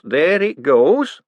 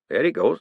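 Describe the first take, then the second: First: Higher, louder, slow and thrilled; excited drawn-out repeat. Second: Said in the usual way. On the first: Acted. Hubert thrilled as his machine drains. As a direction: stretch it out, delighted.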